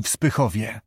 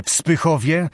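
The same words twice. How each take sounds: First: Said in the usual way. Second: Mildly alarmed echo, rising at the end. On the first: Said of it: "Ów zaś powtórzył jeszcze raz". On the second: A narrator's reading. Jurand echoing the princess about his daughter, mildly alarmed. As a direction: repeat it as a question with a touch of dread. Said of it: "ale już z trwogą w głosie".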